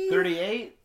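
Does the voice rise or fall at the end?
rise. The voice rises at the end like a question. The speaker sounds unsure of the number.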